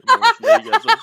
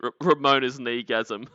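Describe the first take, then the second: First: Much higher, much louder gleeful yell; delighted yell of the name; excited shout. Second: Said in the usual way. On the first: Real, not acted. Reading a funny viewer name.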